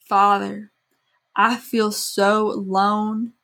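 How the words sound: It is said in a put-on accent.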